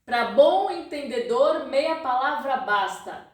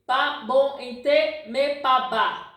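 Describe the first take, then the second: First: Every word is said in full. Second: Most words are cut to their first syllables. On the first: "In Portuguese we say" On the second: "He's cutting the words"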